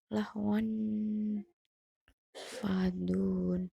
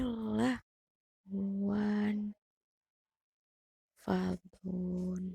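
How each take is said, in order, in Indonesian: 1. Tanwin tersambung begitu saja tanpa tambahan bunyi nin. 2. Tanwin berubah menjadi bunyi nin yang menyambung kedua kata.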